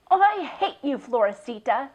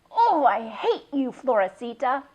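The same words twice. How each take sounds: First: High, loud hateful declaration; angry repeat. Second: Angry cry. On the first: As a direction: spit it at the goat again. Slams gate, repeats angrily. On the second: First angry cry at goat. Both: A narrator's reading.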